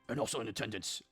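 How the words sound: It is said in a put-on deep voice.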